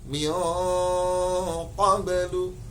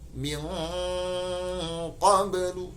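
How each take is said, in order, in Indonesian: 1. Lidah tidak menutup sepenuhnya, dengungnya lemah. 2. Lidah menutup sepenuhnya, dengungnya kuat. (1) "jadi tidak min qablu, tidak" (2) "langsung menempel secara sempurna pada makhraj huruf qaf"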